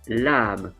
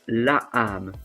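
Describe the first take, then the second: First: The article runs straight into the noun. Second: The article is said as a separate syllable. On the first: The speaker calls it right. "we say l'âme" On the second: The speaker calls it wrong. "We don't say le, la âme"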